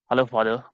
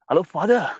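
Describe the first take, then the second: First: It sounds sad, flat and low. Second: It sounds excited, higher and louder. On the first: The speaker is unhappy. The speaker calls it wrong. "You're like sad" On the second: The speaker is happy. The speaker calls it right. "you will now increase the pitch, you will increase the volume"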